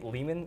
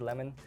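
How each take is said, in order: First: The name sounds like the word layman. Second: The name sounds like the fruit lemon. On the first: The speaker calls it right. "I think Lehman is the right way to say it" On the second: The speaker calls it wrong. "Some people say Lemon"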